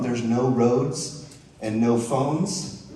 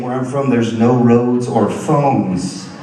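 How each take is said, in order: First: Slow, stressed "no roads and no phones"; slow emphasis. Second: "no roads or phones" slow and louder, each "no" punched; slow loud repeat. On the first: Real, not acted. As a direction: drag out each "no". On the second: Shown as a demonstration. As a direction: hammer each "no" slowly. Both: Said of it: "Let me just say that again".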